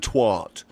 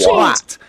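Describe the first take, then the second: First: The vowel rhymes with 'what'. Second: The vowel rhymes with 'cat' and 'hat'. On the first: The speaker calls it wrong. "And they go twat" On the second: The speaker calls it right. "English people pronounce it very clear"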